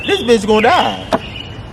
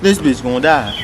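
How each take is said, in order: First: Higher, slow, drawn-out disbelief; emphatic retold reaction. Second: Said in the usual way. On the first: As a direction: stretch it out, pitched up.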